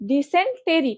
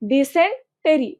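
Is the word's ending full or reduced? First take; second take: full; full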